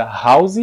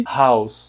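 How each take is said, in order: First: "house" with a Z; Brazilian house. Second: "house" ending in S; English house. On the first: Teacher compares the two versions, Brazilian first. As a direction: buzz the end of "house". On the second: Teacher compares the two versions, English second. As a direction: hiss the end of "house". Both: Shown as a demonstration. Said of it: "Olha a diferença".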